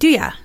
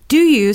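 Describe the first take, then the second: First: The word 'you' is reduced to 'ya'. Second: The word 'you' is pronounced fully.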